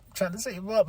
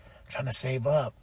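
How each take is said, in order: First: Pitched up a little, pleading with self; mock self-pleading; insistent repeat. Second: Quiet, resigned self-talk; soft reminder to save money; hushed, half-joking restraint; muttered to self. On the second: Retold or imitated. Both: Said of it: "and I'm like".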